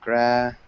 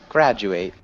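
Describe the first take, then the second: First: The final syllable is reduced, like 'it'. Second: The final syllable sounds like 'eight'. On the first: It names a person who has finished studying. "the other word is graduate, and it sounds like graduate. And so that's a noun" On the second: It means to finish your studies.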